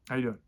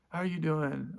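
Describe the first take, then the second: First: It sounds blunt, with no put-on warmth. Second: It sounds fake-friendly, with a forced smile. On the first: The speaker no longer pretends to care. "I don't have a bedside manner anymore" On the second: The speaker pretends to care. "you put on the the freaking porcelain smile"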